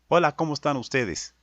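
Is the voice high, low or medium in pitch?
medium. The voice is neither high nor deep.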